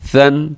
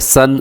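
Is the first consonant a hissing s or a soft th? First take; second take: soft th; hissing s. First: The first consonant is a soft th sound. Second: The first consonant is a whistling s sound. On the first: The speaker calls it right. "कोशिश करें कि हाँ सीटी कंट्रोल हो" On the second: The speaker calls it wrong. "ऐसे नहीं पढ़ना ... ये दुरुस्त नहीं है"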